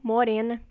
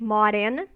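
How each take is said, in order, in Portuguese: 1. A primeira vogal é fechada. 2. A primeira vogal é aberta. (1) "ou fechada, como na maior parte do Brasil" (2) "Aberta no Nordeste"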